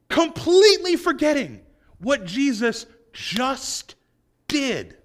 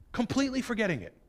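First: Slow emphatic. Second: Quick soft aside. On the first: Preacher stresses disciples' forgetfulness. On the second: Preacher repeats the point. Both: Acted.

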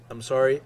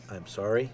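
First: A quick, louder, excited apology; bursting with fan excitement, sorry. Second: Said in the usual way. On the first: Real, not acted. Fan reviewing a trailer to viewers, excited louder apology. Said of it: "I'm getting excited". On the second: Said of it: "Let me take a breath and calm down".

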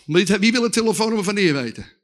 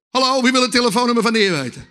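First: Said in the usual way. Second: Quicker, insistent repeat of the question; rousing call. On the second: Real, not acted. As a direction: call out to wake up the crowd. Repeats question to rouse the congregation.

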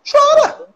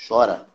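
First: High, loud cry of encouragement; shouted urging. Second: Said in the usual way. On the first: Shown as a demonstration. Therapist urging the viewer to let the tears out, loud and high. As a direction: throw it out as a big command. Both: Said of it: "Deu vontade de chorar?".

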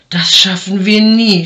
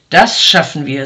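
First: Louder, puffing despair; panting. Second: Louder, firm and assured; confident. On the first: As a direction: huff it out, exhausted. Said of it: "schnaufte der Mann". (schnaufend und verzweifelt) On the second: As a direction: answer with calm certainty. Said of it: "sagte der andere". (zuversichtlich und bestimmt) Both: A narrator's reading.

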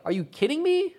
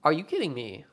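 First: High, disbelieving "Are you kidding me?" with the pitch shooting up; a mock-shocked "Are you kidding me?", pitched way up; incredulous. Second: "Are you kidding me?" said dry and level, leaning on kidding; a flat, falling "Are you kidding me?" with kidding weighted; deadpan. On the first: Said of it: "Or like, or like". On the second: Retold or imitated.

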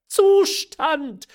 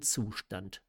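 First: Very high, loud outraged exclamation; incredulous cry. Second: Said in the usual way. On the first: A narrator's reading. Mother echoing her daughter's word, incredulous high cry. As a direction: shriek the word back in disbelief. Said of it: "rief die Mutter wieder".

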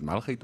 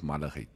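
First: "malgheid" with no vowel between l and g; two-syllable pronunciation. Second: "malligheid" with a short uh after the l; three-syllable pronunciation. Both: Shown as a demonstration. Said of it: "Is it malgheid of malligheid?".

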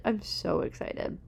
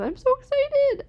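First: Slow excited whisper; whispered excitement. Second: Much higher, louder excited squeal; squealing excitement. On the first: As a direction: breathe it out as a secret thrill. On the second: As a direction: squeal it out with joy. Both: Real, not acted.

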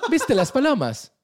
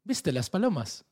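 First: High, loud, slow hammed-up Italian accent; mock Italian accent. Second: A light put-on Italian accent, slow; hint of an Italian local asking; mock Italian accent. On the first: Italian man asks about pigeons, hammed-up Italian accent. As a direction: ham up the Italian local, laughing through it. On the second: Italian man asks about pigeons, light mock Italian accent. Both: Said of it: "Este es mi acento italiano".

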